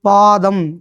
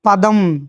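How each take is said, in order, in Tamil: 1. முதல் உயிர் நெடில். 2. முதல் உயிர் குறில். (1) "பாதம் என்னது? கீழ்ப்பகுதி" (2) "பா என்பது பா என்று குறுகி ஒலிக்கும் போதும்"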